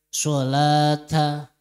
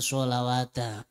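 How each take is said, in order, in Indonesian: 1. Kata ini diucapkan tanpa bunyi 'w'. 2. Kata ini diucapkan dengan bunyi 'w'. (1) "Maka dibaca hada sholata" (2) "Tidak dibaca sholawata"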